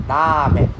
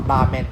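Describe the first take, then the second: First: Ramen with a tapped R and long A; long first vowel. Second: Ramen with a short A; short first vowel. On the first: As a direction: drag out the RA in Ramen. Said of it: "It's a long sound". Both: Shown as a demonstration.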